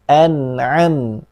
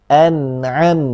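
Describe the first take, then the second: No difference in how they are said.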